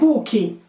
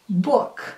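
First: An extra vowel sound follows the final k. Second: The word stops on a strong final k. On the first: The speaker calls it wrong. "não tem esse I ali, não é book" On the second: The speaker calls it right. "Eu vou dar uma exagerada nesses finais, K"

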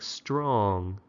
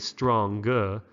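First: The word ends with a smooth ng sound. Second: The word ends with a separate hard g. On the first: The speaker calls it right. "but with the NG, it's like strong, rhymes with song" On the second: The speaker calls it wrong. "We don't say strong"

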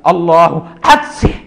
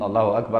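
First: There is a pause between the two words. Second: The two words are said together without pausing.

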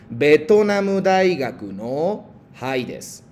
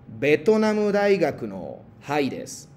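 First: It is said at a slower pace. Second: It is said at a normal, quicker pace.

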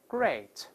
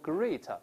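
First: The vowel sounds like 'ay'. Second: The vowel sounds like 'ee'. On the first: The speaker calls it right. "嘴再张大一些" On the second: The speaker calls it wrong. "注意这个词不要读great，不是e 而是a"

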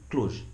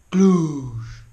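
First: The vowel in the word is short. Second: The vowel in the word is drawn out. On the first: This is how locals say the name. The speaker calls it right. "Așa folosesc toți clujenii" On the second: Only outsiders say the name this way. The speaker calls it wrong. "Doar voi spuneți Cluj"

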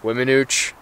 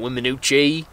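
First: The word ends without a final vowel sound. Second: The word ends with a final vowel sound. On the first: The speaker calls it right. "not the E" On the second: The speaker calls it wrong. "so it's not Wiminouche"

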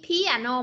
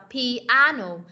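First: The stress is not on the second syllable. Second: The stress is on the second syllable. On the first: The speaker calls it wrong. "Không phải là piano" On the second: The speaker calls it right. "mà mình đọc là piano. Nhấn âm 2"

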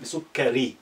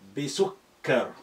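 First: The word ends with a short i vowel. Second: The word ends on the consonant r. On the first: "That's the complete pronunciation" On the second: "imaginary sukoon is good"

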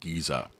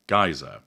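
First: The word is said the British way. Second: The word is said the American way. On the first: "In Britain we tend to say geyser" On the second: "in the States you say geyser"

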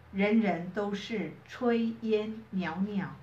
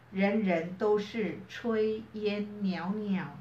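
Both takes have the same delivery.

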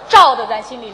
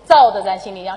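First: The first word starts with a retroflex 'zh' sound. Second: The first word starts with a flat 'z' sound. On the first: The speaker calls it right. "是照" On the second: The speaker calls it wrong. "不是造的咱心里亮"

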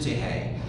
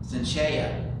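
First: The name is said with a Greek pronunciation. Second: The name is said with an English pronunciation.

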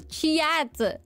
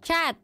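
First: A y-like glide follows the first consonant. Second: No glide follows the first consonant. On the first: Someone else says it this way. The speaker calls it wrong. "I don't go chiat" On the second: This is how the speaker really says it. The speaker calls it right. "I go chat"

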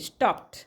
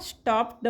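First: The word ends with a short t sound. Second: The word ends with a d sound. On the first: The speaker calls it right. "उच्चार करायचा ट" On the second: The speaker calls it wrong. "स्टॉप ड म्हणणार? ड नाही म्हणायचं आहे"

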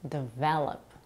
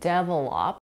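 First: The stress falls on the second syllable. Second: The stress falls on the first syllable. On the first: The speaker calls it right. "The correct pronunciation is develop" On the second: The speaker calls it wrong. "put the primary stress of this word on the first syllable, making it sound like develop, which is incorrect"

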